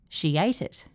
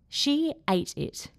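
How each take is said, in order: First: The words are joined by a gliding Y sound. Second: The words are said slowly and separately. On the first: "Then I will say it with intrusion" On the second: "I'm going to say it slowly"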